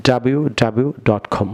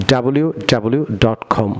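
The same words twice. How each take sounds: The two takes are said the same way.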